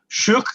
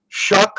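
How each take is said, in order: First: The vowel sounds like the one in shook. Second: The vowel sounds like the one in shuck. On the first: "kind of like shush" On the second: "like shucking oysters"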